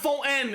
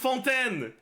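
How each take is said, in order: First: The T sound is left silent. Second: The T sound is clearly pronounced. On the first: The speaker calls it wrong. "It's not" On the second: The speaker calls it right. "the silent T is not a thing in Fontaine"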